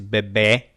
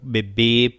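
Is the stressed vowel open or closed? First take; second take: open; closed. First: The stressed vowel is open. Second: The stressed vowel is closed. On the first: This is how it is said in Portugal. "como em Portugal são abertas" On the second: This is how it is said in Brazil. "no Brasil são ditas com a vogal fechada"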